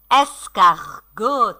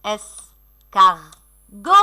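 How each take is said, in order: First: "Escargot" slow, lightly separated syllables; drawn-out word. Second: "Escargot" in three slow beats, rising at the end; syllable by syllable. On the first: Pretend. Teacher repeating pupils' catch, "Escargot" drawn out. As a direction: stretch out "Escargot" as one word. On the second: Shown as a demonstration. Teacher scanning for pupils, "Escargot" in separate syllables. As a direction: split "Escargot" into es, car, go with long pauses. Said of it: "Allez scander les mots".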